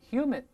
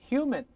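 The two takes are said the same way.

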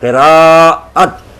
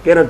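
First: The middle vowel is drawn out long. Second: The middle vowel is short and clipped. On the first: The speaker calls it right. "लंबा करके" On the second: The speaker calls it wrong. "किरत नहीं बोलना चाहिए"

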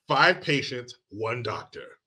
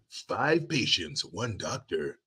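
First: It is said in the speaker's normal voice. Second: It is said in a dramatic movie-trailer voice.

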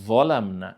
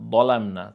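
First: The first consonant is the za sound. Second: The first consonant is the dad sound. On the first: The speaker calls it right. "এটা জ দিয়ে উচ্চারণ হবে" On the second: The speaker calls it wrong. "এখানে দদ দিয়ে পড়লে হয়তো তো দলামনা"

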